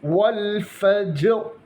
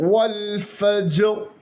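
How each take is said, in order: Both takes have the same delivery.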